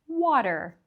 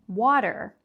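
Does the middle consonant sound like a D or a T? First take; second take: D; D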